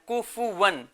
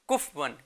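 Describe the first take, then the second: First: The f sound is followed by a short u vowel. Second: The f sound is closed with no following vowel. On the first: The speaker calls it right. "फा असल तलफ्फुज क्या है" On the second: The speaker calls it wrong. "काफ फा को साकिन कर देते हैं"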